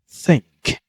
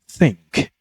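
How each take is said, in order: First: The first sound is a clear th. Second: The same.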